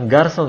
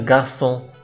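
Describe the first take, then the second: First: The word ends with a full ng consonant. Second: The word ends with a held nasal vowel. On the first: The speaker calls it wrong. "bukan garçon ya" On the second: The speaker calls it right. "sengaunya Prancis"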